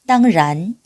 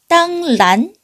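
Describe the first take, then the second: First: The second syllable starts with an R-like sound. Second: The second syllable starts with an L-like sound. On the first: The speaker calls it right. "이렇게 발음하시면 되겠습니다" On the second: The speaker calls it wrong. "아니고요"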